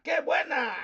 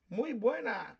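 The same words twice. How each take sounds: First: "qué buena" with pitch jumping high on "qué" and louder; exclamatory qué buena. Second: Said in the usual way. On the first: Shown as a demonstration. Showing a listener how qué adds emphasis, exclaimed qué buena. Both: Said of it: "they wanna put buena with an exclamation point".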